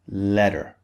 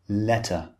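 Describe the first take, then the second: First: The middle consonant is a soft D-like sound. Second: The middle consonant is a clear, crisp T. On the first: "In American English, this would be letter" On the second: "In British English, the T is clearly pronounced"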